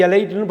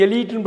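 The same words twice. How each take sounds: First: எலைட்னு said 'e-LITE'; wrong 'lie' pronunciation. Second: எலீட்னு said 'e-LEET', long ee; correct long-ee pronunciation. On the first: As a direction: rhyme the end of எலைட்னு with 'light'. (எலைட்னு - 'லை' என்ற தவறான ஒலி) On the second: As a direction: say the middle of எலீட்னு as 'lee', not 'lie'. (எலீட்னு - 'லீ' நெடில் ஒலி) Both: Shown as a demonstration. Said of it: "எலைட்னு படிக்கக்கூடாது".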